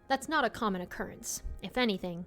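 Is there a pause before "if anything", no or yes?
yes. There is a pause before "if anything".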